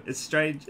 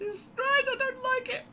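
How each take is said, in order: First: Said in the usual way. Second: Very high-pitched mock complaint; put-on squeaky voice. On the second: Gamer repeats his complaint to himself, silly high squeak. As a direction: squeak it out in falsetto.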